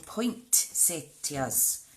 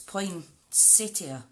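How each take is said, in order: First: A T sound follows the first syllable 'poin'. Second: No T sound follows the first syllable 'poin'. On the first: This is how people in America say it. "people in America call them poinsettias" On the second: This follows the spelling of the word. "there isn't actually a T in the first part. It's poinsettia"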